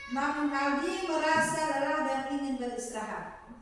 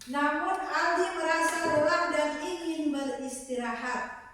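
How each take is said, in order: No difference in how they are said.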